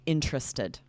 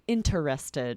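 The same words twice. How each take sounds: First: The word is said with three syllables. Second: The word is said with all four syllables. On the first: The speaker calls it right. "We're changing it to three syllables" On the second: The speaker calls it wrong. "pronounce each syllable"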